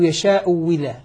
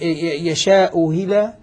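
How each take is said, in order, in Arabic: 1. الهمزة الثانية مبدلة واوا خالصة. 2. الهمزة الثانية مسهّلة، بين بين. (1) "يشاء ولا أبدلناها واوا خالصة" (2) "نسهل الثانية"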